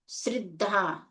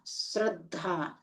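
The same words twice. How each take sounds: First: "श्रद्धा" mispronounced with ri for ra; wrong i-vowel pronunciation. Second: "श्रद्धा" soft and drawn out, with ra; a-vowel pronunciation. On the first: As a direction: say "श्रद्धा" as srid-dhaa, softly. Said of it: "श्रद्धा नहीं होता". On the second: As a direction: say "श्रद्धा" slowly as srad-dhaa. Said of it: "श्रद्धा होता है". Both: Shown as a demonstration.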